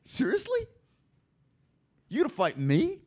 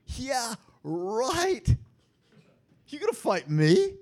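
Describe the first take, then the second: First: A mock-amused, much higher "Seriously?"; lightly voiced, incredulous chuckle; amused disbelief. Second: Higher and louder, a sarcastic "Yeah, right"; mock dismissive sneer; scoffing. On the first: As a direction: play the Lord laughing off a puny threat. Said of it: "First of all, he laughs". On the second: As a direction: scoff at them as the Lord. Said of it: "The Lord scoffs at them".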